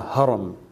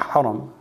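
First: The word begins with a light, plain h sound. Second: The word begins with a heavier, throatier h sound. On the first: The speaker calls it right. "The small ha" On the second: The speaker calls it wrong. "not haram"

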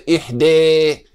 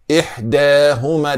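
First: The vowel after d is a full e-like sound. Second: The vowel after d is between a and e. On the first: The speaker calls it wrong. "It's not imala" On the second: The speaker calls it right. "It's not fat, it's taqlil"

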